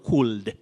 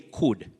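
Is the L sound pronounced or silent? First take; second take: pronounced; silent. First: The L sound is pronounced. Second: The L sound is silent. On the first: The speaker calls it wrong. "very common but very wrong" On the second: The speaker calls it right. "L is silent"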